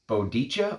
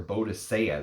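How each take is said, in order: First: The name ends with a 'chah' sound. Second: The name ends with a 'see-ah' sound. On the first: This is how the name was said originally. The speaker calls it right. "They called her Bodicha" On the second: This is the common modern name. The speaker calls it wrong. "they didn't call her Bodicea"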